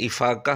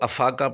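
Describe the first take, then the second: First: The word begins with an 'i' vowel. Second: The word begins with an 'a' vowel. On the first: The speaker calls it right. "बल्कि इफ़ाक़ा लफ्ज़ है" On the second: The speaker calls it wrong. "कई लोग इसको अफ़ाक़ा पढ़ लेते हैं, लेकिन वो अफ़ाक़ा नहीं होता"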